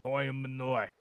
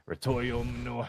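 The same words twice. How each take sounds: First: A fresh try at "Rotorio Manoy"; second attempt. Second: "Rotorio Manoy" said with effort, stress on ROTORIO; stumbling through "Rotorio Manoy"; mangled name. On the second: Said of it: "try to say that". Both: Real, not acted.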